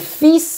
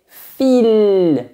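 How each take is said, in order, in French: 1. Le S se prononce et le L est muet. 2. Le L se prononce et le S est muet. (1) "on prononce le S, mais pas le L" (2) "Vous prononcez le L, mais pas le S"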